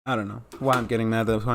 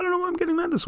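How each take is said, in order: First: Said in the usual way. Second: The line pitched way up high. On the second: Real, not acted. Vlogger questioning own anger, very high-pitched. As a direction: squeak it out in a very high voice.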